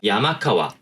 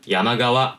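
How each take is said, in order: First: The second part starts with a voiceless k. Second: The second part starts with a voiced g. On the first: A mountain and a river, simply listed. "야마카와라고 하는 의미가 되면요, 두 개를 단순하게 나열한 거예요" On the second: A river located in the mountains. "야마가와라고 발음을 했을 경우에는요, 야마니 아르 카와"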